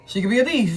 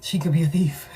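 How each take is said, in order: First: Said out loud, louder and higher; emphatic loud restatement; louder repeat. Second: Breathy conspiratorial whisper; hushed aside to the viewer. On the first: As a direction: drop the whisper and say it full voice. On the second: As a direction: lean in and whisper it like a secret. Whispered warning about the boss. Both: Real, not acted.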